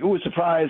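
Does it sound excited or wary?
wary. It sounds wary and suspicious.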